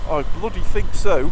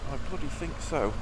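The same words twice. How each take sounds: First: "I bloody think so" said loud with a falling end; loud and sure, "I bloody think so" ending down. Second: "I bloody think so" said much softer, stress on "bloody"; hushed "I bloody think so" with "bloody" pressed; quiet. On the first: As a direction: punch out "I bloody think so" with full voice. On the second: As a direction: drop to a soft "I bloody think so", leaning on "bloody". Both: Shown as a demonstration.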